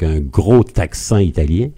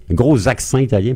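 First: Said in the usual way. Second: "gros accent" linked with a z sound, ɡʀoz aksɑ̃; wrong liaison. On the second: Shown as a demonstration. Historian joking about Letizia's Corsican French, "gros accent" with a z liaison. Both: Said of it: "passez-moi la, la liaison mal à propos".

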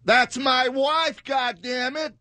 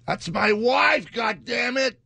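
First: Very high, slow, loud hammed-up American yell; American guy impression. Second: High, slow, loud American movie-guy shout; American accent impression. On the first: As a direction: bellow it like a furious movie husband. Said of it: "Let me do it again". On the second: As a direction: belt it like an outraged American film husband. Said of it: "I'm doing American".

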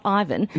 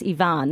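First: "Ivan" said EYE-van, English style; wrong name pronunciation. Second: "Ivan" said ee-VAHN, long ee then ahn; correct name pronunciation. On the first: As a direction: say "Ivan" as eye-van, stress on the first syllable. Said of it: "Yes, Ivan". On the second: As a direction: say "Ivan" as ee-vahn, not eye-van. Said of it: "not Ivan". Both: Shown as a demonstration.

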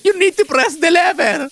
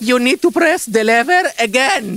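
First: High-pitched, drawn-out outburst; cracking customer-service yell, much higher; exasperated shout. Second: Slow, high, word-by-word instruction; holding back exasperation, drawn out; strained patience. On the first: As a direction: lose your temper on a slow instruction. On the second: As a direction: spell it out slowly to a difficult guest. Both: Acted. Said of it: "Why you shout?".

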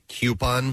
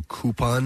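First: Coupon said "KYOO-pon"; pet-peeve pronunciation. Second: Coupon said "KOO-pon"; preferred pronunciation. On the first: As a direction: start coupon with a "kyoo" sound. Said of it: "as opposed to coupon". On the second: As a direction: start coupon with a plain "koo", no y-glide. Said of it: "when people say coupon". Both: Shown as a demonstration.

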